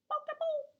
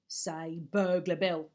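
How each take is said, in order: First: Put-on much higher, squeaky baby voice. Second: Slow, lower gruff coaxing; Burglar Bill voice. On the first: Baby copying the burglar, high and squeaky. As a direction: squeak it like a tiny child. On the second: Acted. Burglar teaching the baby his name, slow and low. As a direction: coax it like a rough teacher.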